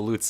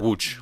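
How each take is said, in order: First: The name begins with an L sound. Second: The name begins with a W sound. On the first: The speaker calls it wrong. "they're like, yeah, no, it's not that" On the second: The speaker calls it right. "it's a w sound"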